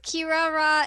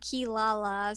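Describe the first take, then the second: First: The name is said with R-like sounds. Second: The name is said with L sounds. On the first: This is the original Japanese form. "Japanese pronunciation would be Kirara" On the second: This is the form used in the English version. "the English way of saying"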